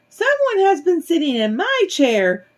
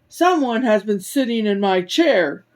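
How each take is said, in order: First: It is said in a tiny, small voice. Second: It is said in a big, deep voice. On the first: "in his tiny little voice" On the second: "in his big voice"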